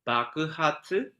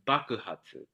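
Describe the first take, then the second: First: The first syllable is low, the rest high. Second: The first syllable is high, the rest low. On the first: "low, high, high, high" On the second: "high, low, low, low"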